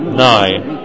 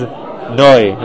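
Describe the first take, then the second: First: The syllable is said with an 'ai' vowel. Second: The syllable is said with an 'oi' vowel. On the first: The speaker calls it wrong. "It's not nai" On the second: The speaker calls it right. "but it is noi"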